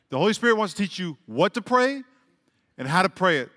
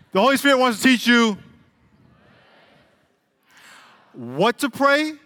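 First: Said in the usual way. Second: Preacher hammering it in; emphatic preaching. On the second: Real, not acted. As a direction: drive the point home.

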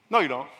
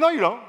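First: Softer repeat. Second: Sharp, higher no, you don't; firm retort. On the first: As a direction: say it again, gently but sure. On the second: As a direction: cut them off flatly. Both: Retold or imitated. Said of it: "I'm saying".

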